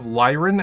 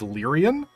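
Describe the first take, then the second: First: The word has two syllables, no extra vowel. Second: The word has three syllables, with an extra vowel. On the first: The speaker calls it right. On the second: The speaker calls it wrong.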